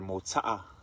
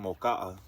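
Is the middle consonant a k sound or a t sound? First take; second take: t sound; k sound. First: The middle consonant is a t sound. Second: The middle consonant is a k sound.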